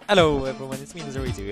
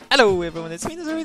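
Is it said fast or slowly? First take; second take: slowly; fast. First: It is said more slowly. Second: It is said too fast.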